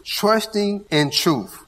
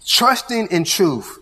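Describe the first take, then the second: First: Slower still, "Trusting" drawn out and falling; slow restated emphasis on "Trusting"; repeated emphasis on trusting. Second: Slow, with "Trusting" leaned on and falling; measured emphasis on "Trusting" for the congregation; stress on trusting. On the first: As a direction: lean on "Trusting" once more, deliberately. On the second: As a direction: hit "Trusting" first, then ease into truth. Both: Shown as a demonstration. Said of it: "we're gonna put emphasis on the word trust".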